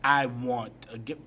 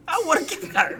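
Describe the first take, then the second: First: Said in the usual way. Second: High, loud insistent whine; whiny demand. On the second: Real, not acted. Repeated louder insisting.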